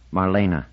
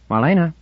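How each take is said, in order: First: Marlena said in three syllables, mar-LAY-na, with a little trill on the R. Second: Called out high and loud from behind her; a bright call to get her attention. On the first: Shown as a demonstration. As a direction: Marlena with a rolled R and all three syllables clear. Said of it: "with a little trill to the R". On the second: Acted. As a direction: call her name across the deck. Orinel calling her from behind.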